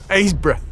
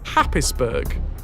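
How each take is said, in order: First: It is said as a short Aysborough. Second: It is read out the way it is spelled. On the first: "Pronounced Aysborough" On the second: "spelt Happisburg"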